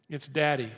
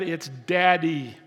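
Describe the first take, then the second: First: Said in the usual way. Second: Daddy slow and louder, leaning in; stress on daddy. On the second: Shown as a demonstration. Pastor teaching the meaning of Abba, stressing daddy slowly. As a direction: land on the word daddy, slow and full. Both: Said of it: "It is not sir... It's daddy".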